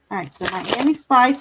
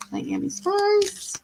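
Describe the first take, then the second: First: Said in the usual way. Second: High, slow, sing-song call of Miami Spice; sing-song name call. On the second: Real, not acted. Tarot reader calls out to a viewer in chat, high slow sing-song. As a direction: croon the name slowly up high like calling a pet.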